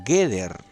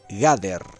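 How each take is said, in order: First: The first vowel is a full e. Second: The first vowel is a full a. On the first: "se encuentra vocalizada como Geder" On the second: "una pronunciación en hebreo clásico medieval sería así"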